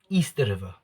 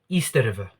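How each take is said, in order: First: Said with a Zimbabwean accent, sounding like 'Easter'. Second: The same.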